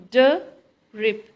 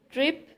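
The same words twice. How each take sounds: First: Drip split as a loud duh, pause, then rip; duh... rip, two separate beats; syllable by syllable. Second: Said in the usual way. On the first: Shown as a demonstration. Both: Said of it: "stress is on first syllable".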